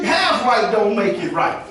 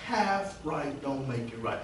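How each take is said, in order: First: Slow, weighted refrain half right don't make it right; preacher drives the point home slowly; preaching refrain. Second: Half right don't make it right said slow and much softer; quiet, slow echo of the refrain; soft repeat. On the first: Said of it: "slow repeated refrain". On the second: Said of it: "repeated softly". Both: Shown as a demonstration.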